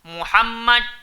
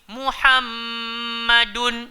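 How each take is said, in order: First: The doubled m is short, with no nasal hum. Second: The doubled m is held with a nasal hum. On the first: The speaker calls it wrong. "kalau tak dengung bacaan dia akan jadi Muhammad. Tak betul" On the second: The speaker calls it right. "Dia mesti Muhammadun"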